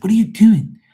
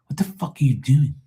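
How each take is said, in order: First: High, loud retold scolding; exasperated yell. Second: Higher-pitched, exasperated retold scolding. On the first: Son to mom who almost dropped potatoes, exasperated yell. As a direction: yelp it at her, pitch leaping up. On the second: Son scolding mom in the store, exasperated. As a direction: scold in disbelief, pitch lifted.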